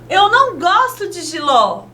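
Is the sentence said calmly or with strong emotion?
strong emotion. It is said with strong, heightened emotion. The speaker feels strongly about it. "escrita com ponto de exclamação"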